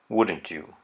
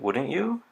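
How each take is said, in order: First: The pitch falls at the end. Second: The pitch rises at the end. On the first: The person is fairly certain. "With the falling intonation" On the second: The person is actually uncertain. "with the rising intonation"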